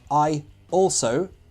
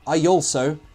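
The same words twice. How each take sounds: First: The two words are said without a linking Y. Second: A Y sound links the two words together. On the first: The speaker calls it wrong. "So I also doesn't sound right" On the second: The speaker calls it right. "But with intrusion, I also sounds dangerously British"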